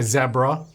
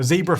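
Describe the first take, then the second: First: Zebra is said the Australian way. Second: Zebra is said in a non-Australian way.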